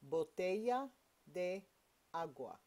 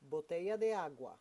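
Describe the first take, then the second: First: It is said at a slow, careful pace. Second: It is said at a fast pace.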